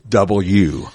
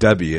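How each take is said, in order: First: All syllables of 'double-u' are clearly said. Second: The middle syllable of the letter is dropped. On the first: The speaker calls it right. "So you have to say double" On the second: The speaker calls it wrong. "it's not W"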